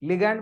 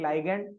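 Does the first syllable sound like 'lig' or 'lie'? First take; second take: lig; lie. First: The first syllable sounds like 'lig'. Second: The first syllable sounds like 'lie'. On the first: "लिगैंड बा" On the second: "केतण कहंती लाइगैंड"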